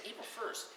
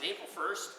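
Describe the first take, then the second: First: Said in the usual way. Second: Slow questioning rise on "April first?"; "April first?" as the penny drops, rising at the end; dawning realization. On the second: Retold or imitated. Husband suddenly realizing the prank, dawning surprise. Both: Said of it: "the light bulb went on".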